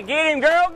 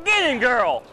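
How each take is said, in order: First: Cheering on a fight. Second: Higher cheer, punching get; cheering on a fight. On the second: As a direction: urge her on, falling. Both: Real, not acted. Cheering on a catch.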